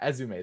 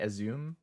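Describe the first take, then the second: First: The name is said the Japanese-style way. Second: The name is said the anglicized way. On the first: The speaker calls it right. "That makes more sense" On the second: The speaker calls it wrong. "Azum sounds like the way that like a super Western person would say"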